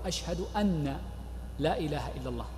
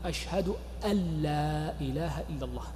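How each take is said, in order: First: The n is only weakly pronounced before la. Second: The n merges completely into the following l. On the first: The speaker calls it wrong. "وبعض الناس يضعفها" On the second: The speaker calls it right. "والصواب الإدغام"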